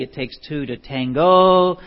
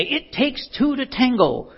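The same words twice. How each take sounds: First: "tango" with a clear "go" ending; corrected quote. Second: "tango" said as "tangle", ending in an l; high mock-mom voice turning "tango" into "tangle"; mom's misquote. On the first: Shown as a demonstration. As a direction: stress "tango" loudly, ending on a long o. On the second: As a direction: say "tango" wrongly as "tangle", pitched up. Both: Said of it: "the quote's actually".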